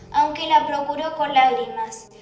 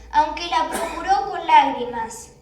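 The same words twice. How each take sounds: The two takes are said the same way.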